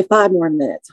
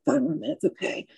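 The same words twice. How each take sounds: First: Said in the usual way. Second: Much softer, barely voiced repeat; wounded woman in the ambulance echoes the paramedic, faintly; faint and weak. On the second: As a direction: hold on to the words with fading strength.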